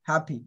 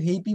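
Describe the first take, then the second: First: The first vowel is a short open 'a'. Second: The first vowel is a gliding 'ay' sound. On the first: The speaker calls it right. "হ্যাপি to বি here" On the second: The speaker calls it wrong. "আবার কেউ হেইপি বলো না"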